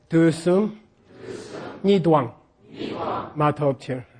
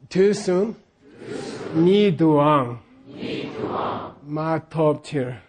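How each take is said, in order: First: "Ni duang" clipped to one beat; poetic reading. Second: "Ni duang" read normally, then slow "Ma top tier"; plain reading. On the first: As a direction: read it in seven even beats. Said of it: "But we wanna say". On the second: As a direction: read the line plainly for repetition. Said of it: "I'll say it normally". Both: Shown as a demonstration.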